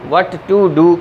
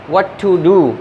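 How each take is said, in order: No difference in how they are said.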